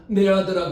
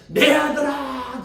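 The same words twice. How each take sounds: First: Said in the usual way. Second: Tender mother. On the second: Retold or imitated. Mother blesses her son.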